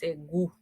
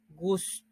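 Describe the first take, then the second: First: It is said with no s sound. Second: It is said with an s sound. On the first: The modern form of the word. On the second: The older form of the word.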